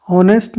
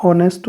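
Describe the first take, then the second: First: "ऑनेस्ट" started with an audible h; H sounded. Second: "ऑनेस्ट" starting straight on the vowel; silent H. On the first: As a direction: breathe an h onto "ऑनेस्ट". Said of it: "ऑनेस्ट नहीं होता है". ("ऑनेस्ट" की शुरुआत में ह की आवाज़) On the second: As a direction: drop the h in "ऑनेस्ट". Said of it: "ऑनेस्ट होता है". ("ऑनेस्ट" में ह silent) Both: Shown as a demonstration.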